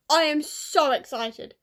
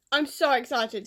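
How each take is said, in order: First: I am so excited said slowly, each word spaced out; slow, spaced-out excitement. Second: Said in the usual way. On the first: Real, not acted. Vlogger to viewers, spelling out her joy, slowly.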